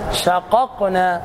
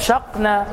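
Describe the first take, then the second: First: The two q sounds are pronounced separately. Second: The two q sounds are merged into one. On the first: The speaker calls it right. "فيجب عليك أن تظهر" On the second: The speaker calls it wrong. "فلا تقل شقنا"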